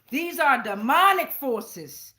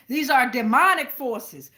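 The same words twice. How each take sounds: The two takes are said the same way.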